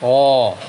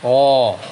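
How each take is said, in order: First: The letter is pronounced thick and full. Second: The letter is pronounced thick and full.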